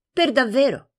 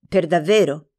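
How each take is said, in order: First: "Per davvero." said higher, as a firm answer; "Per davvero." stated, not asked; firm confirmation. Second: "Per davvero?" asked with a falling, doubting tone; "Per davvero?" as a mild doubting question; doubtful question. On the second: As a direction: ask "Per davvero?" as if hard to believe. Asking in disbelief. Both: Acted.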